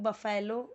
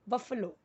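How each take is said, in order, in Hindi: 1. बीच का स्वर पूरा 'eh' वाला है। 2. बीच का स्वर छोटा और घटा हुआ है।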